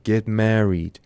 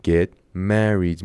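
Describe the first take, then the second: First: Said in the usual way. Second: "Get married" drawn out very slowly; slow model take. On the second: Shown as a demonstration. Teacher repeats phrase slowly for students.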